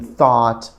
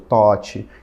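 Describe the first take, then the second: First: It is said with a native English pronunciation. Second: It is said with a Brazilian-accented pronunciation. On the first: The speaker calls it right. "tentar fazer uma mímica da pronúncia correta" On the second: The speaker calls it wrong. "não falar thought ou thought"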